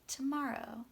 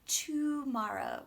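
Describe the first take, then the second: First: The first syllable has a reduced schwa vowel. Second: The first syllable has a full 'oo' vowel. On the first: The speaker calls it right. "We're trying to do it ta" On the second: The speaker calls it wrong. "we're trying to make it not tomorrow"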